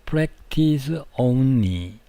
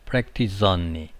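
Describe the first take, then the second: First: The two words are said separately. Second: The final s runs into the next word. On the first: The speaker calls it wrong. "가 아니고" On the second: The speaker calls it right. "이렇게 이어집니다"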